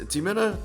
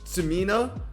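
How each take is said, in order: First: The name begins with a ts sound. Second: The name begins with a plain s sound. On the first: "the X was pronounced like a T S in tsunami" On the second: "I don't know how to pronounce his name correctly"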